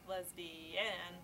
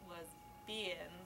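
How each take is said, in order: First: The stress is on the third syllable. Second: The stress is on the second syllable. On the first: "She put an emphasis on every syllable in turn" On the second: "She put an emphasis on every syllable in turn"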